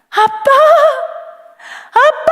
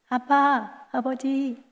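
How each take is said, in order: First: It is cried out loudly with deep emotion. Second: It is said calmly and quietly.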